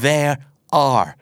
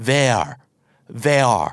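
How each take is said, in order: First: "there are" said in full as two clear words; the long, hard-to-say form. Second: "there" said alone, with "are" dropped; the lazy short form; reduced form. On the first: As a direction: spell out "there are" word by word. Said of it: "เพราะมันออกเสียงยาก". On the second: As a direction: squash it down to just "there". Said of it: "ย่อเป็น". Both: Shown as a demonstration.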